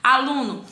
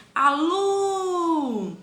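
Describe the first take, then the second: First: Said in the usual way. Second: Aluno with LU held very long and high; stress on LU. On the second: Shown as a demonstration. Teacher shows pupils the tonic syllable, LU held long and high. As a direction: stretch the middle syllable LU of aluno. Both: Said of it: "a sílaba tônica é lu".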